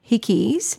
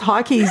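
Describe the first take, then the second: First: The first syllable rhymes with 'sick'. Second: The first syllable rhymes with 'like'. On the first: "Maybe I'm pronouncing it wrong" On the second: "Maybe it's Hikeys"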